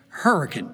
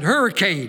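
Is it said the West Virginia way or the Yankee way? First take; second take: West Virginia; Yankee. First: It is pronounced the local West Virginia way. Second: It is pronounced the way Yankees say it.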